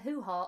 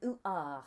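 First: The word starts with an h sound. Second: The word starts without an h sound.

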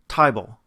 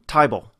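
First: The vowel sounds close to 'eye'. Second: The vowel sounds close to 'eye'.

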